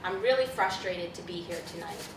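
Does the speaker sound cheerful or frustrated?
frustrated. It is said in a frustrated, annoyed tone. The listener believes the speaker is frustrated. "you may believe it"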